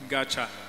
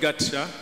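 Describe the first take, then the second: First: The middle consonant sounds like 'ch'. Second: The middle consonant sounds like 'ts'. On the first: The speaker calls it right. "but we pronounce it Gacha" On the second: The speaker calls it wrong. "it's not Gatsha"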